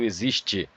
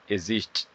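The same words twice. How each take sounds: First: The final syllable is clearly and fully pronounced. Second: The final syllable is swallowed and barely heard. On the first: The speaker calls it right. "As pessoas não falam existe" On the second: The speaker calls it wrong. "elas falam existe"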